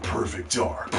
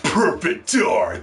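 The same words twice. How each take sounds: First: Low, soft retold announcement; low announcement imitation. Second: Stretched-out imitation of the title reveal; drawn-out title. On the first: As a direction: say the title low and hushed. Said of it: "And then they said". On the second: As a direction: draw out both words, more forcefully. Same title repeated for effect.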